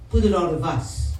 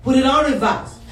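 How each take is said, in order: First: Said in the usual way. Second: Loud, higher-pitched command; emphatic repeat. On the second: Real, not acted. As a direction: punch the instruction out to the congregation. Louder repeat after "I said what?.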